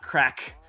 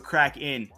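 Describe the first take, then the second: First: The name has one syllable, with no ending. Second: The name has two syllables, ending in 'in'. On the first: The speaker calls it wrong. "not crack" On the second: The speaker calls it right. "So crack in, big mistake"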